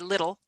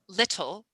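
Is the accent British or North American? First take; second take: North American; British. First: The middle t is soft, North American style. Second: The middle t is sounded crisply, British style. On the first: "but we'd say" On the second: "the British would say"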